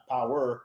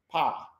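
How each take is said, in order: First: Said in the usual way. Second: "power" as one syllable, pow. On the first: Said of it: "not power". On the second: Shown as a demonstration. Man teaching the host pronunciation, "power" as pow. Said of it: "you pronounce that power".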